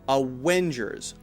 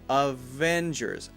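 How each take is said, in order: First: The second sound is a W with rounded lips. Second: The second sound is a V with lip on teeth. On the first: The speaker calls it wrong. "Otherwise, it sounds like a W" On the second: The speaker calls it right. "your bottom lip needs to come up to your teeth"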